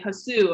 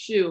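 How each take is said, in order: First: The name is said with two syllables. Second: The name is said with one syllable. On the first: Someone else said it. The speaker calls it wrong. "they'll say Hasu" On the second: This is the name as its owner says it. The speaker calls it right. "no, it's shoe"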